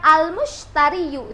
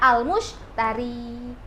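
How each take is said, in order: First: The word ends with an extra 'yu' syllable. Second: The word ends on a plain 'i' sound. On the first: This is the full form, which is hard to say. The speaker calls it wrong. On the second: This is how the word is actually read. The speaker calls it right. "Jadi dia al-mushtari"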